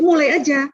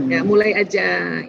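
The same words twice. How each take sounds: First: Said in the usual way. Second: Gentle encouragement. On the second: Shown as a demonstration. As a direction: ease them in gently with "mulai aja". (ajakan lembut dan pelan "mulai aja")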